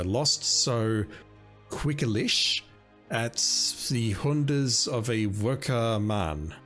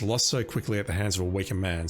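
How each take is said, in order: First: It is said in a German accent. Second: It is said in a plain, unaccented voice.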